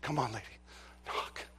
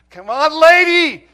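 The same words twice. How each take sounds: First: Urging softly. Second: Loud, much higher plea; pleading shout. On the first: Silently urging her to knock. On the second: Officer urging the guilty neighbor, loud pleading shout. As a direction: beg her to do it, full voice. Begging her to knock. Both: Retold or imitated.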